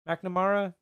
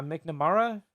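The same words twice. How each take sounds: First: McNamara starting "mack", "mack-nuh-MAR-uh"; alternative pronunciation. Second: McNamara starting "mick", "mick-nuh-MAR-uh"; tentative pronunciation. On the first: Host trying the name another way, McNamara as "mack-nuh-MAR-uh". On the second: Host unsure of a user's name, McNamara as "mick-nuh-MAR-uh". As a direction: say McNamara with a short i in Mc. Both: Shown as a demonstration. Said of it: "It's probably McNamara".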